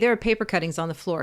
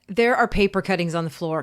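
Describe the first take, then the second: First: It is said in a calm, neutral tone. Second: It is said in an annoyed, exasperated tone. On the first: The problem is simply described. The speaker calls it right. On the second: The speaker is irritated with the listeners. The speaker calls it wrong.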